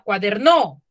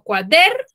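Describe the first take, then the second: First: The stress is on the syllable no. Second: The stress is on the syllable der. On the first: The speaker calls it wrong. "si le digo que en la no está la mayor fuerza de voz, diría cuaderno" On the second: The speaker calls it right. "En der, ¿cierto? Yo digo cuader"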